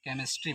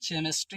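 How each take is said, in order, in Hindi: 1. यह शब्द 'k' ध्वनि से शुरू होता है। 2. यह शब्द 'ch' ध्वनि से शुरू होता है। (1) "इसका उच्चारण जो हम का से करते हैं" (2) "इसको केमिस्ट्री नहीं पढ़ा जाता है"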